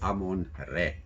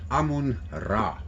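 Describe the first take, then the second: First: The last word ends with an 'eh' vowel. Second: The last word ends with an 'ah' vowel. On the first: "but it's actually Amun Re" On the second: "A lot of people speaks about Amun Ra. You can use it"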